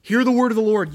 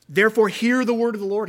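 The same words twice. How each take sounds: First: Loud, raised shout, "Hear" driven hard; commanding shout. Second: Loud, high call, "hear" ringing out; commanding call. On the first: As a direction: demand their attention. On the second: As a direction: summon the crowd to listen. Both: Acted. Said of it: "He's commanding their attention".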